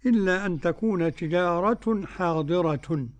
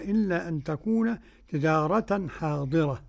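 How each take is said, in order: First: The last two words end with a u-vowel. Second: The last two words end with an a-vowel. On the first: This is how most readers recite it. "الجميع قالوا" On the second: This is how one reader alone recites it. "عاصم فقط قرأ"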